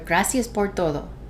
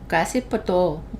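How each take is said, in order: First: The d in todo is fully pronounced. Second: The d in todo is barely pronounced. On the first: "when I first got to Costa Rica" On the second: "we don't need the D"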